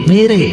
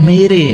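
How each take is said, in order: The two takes are said the same way.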